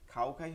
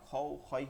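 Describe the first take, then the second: First: The vowel is an open, flat 'a' sound. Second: The vowel is a fuller, rounded 'o' sound. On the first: The speaker calls it wrong. "খাও খাই হবে না" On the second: The speaker calls it right. "খও খয় হবে"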